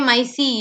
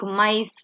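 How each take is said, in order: First: An extra vowel sound follows the final S. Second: The word ends cleanly on the S sound. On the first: The speaker calls it wrong. "you don't say micey" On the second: The speaker calls it right. "the E becomes silent. So it's"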